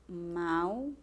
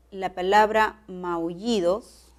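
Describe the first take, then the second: First: Said in the usual way. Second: "maullidos" said slowly, each syllable clear; careful demo word. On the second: Shown as a demonstration. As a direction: spell out "maullidos" slowly for the class. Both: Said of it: "presenta tres sílabas".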